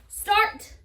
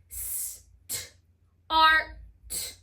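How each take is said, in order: First: Said in the usual way. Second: "st, art" split into separate sounds s, t, ar, t; sounded out. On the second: Shown as a demonstration. Teacher pounding the word for spellers, "st, art" sounded out sound by sound. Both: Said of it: "I'm gonna pound the word start".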